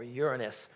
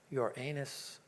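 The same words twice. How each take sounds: First: Uranus as YOOR-uh-nus; Uranus with a quick, weak middle, YOOR-nus; stress on first syllable. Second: Uranus as your-AY-nus; Uranus sounding like "your anus"; stress on second syllable. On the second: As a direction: stress the long AY in the middle of Uranus. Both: Shown as a demonstration. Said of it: "if you call it Uranus or Uranus".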